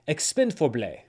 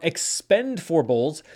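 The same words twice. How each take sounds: First: The title is said with a French accent. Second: The title is said with an English accent.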